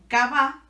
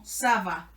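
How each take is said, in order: First: The word begins with a hard K sound. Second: The word begins with a soft S sound. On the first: The speaker calls it wrong. "en vez de sonar como cava" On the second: The speaker calls it right. "va a sonar como saba"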